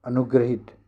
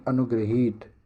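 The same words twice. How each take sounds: First: अनुग्रहित with a short final i; teacher showing the faulty short-i अनुग्रहित; short vowel. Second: Teacher modelling long-ee अनुग्रहीत; long vowel. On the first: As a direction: keep the last vowel of अनुग्रहित brief. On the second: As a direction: lengthen the last vowel of अनुग्रहीत. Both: Shown as a demonstration. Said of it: "अनुग्रहित नहीं".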